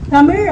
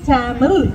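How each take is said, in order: First: The first vowel is short. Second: The first vowel is long. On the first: The speaker calls it right. "தமிழ் அப்படின்னு தான் கொடுத்தாங்க" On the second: The speaker calls it wrong. "நெடிலா மாத்தி டேமில் அப்படின்னு மாத்தினோம்"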